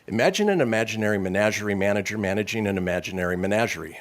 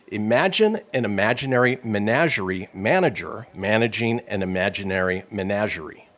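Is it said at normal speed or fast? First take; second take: fast; normal speed. First: It is said quickly, as fast as possible. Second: It is said at a normal, careful speed.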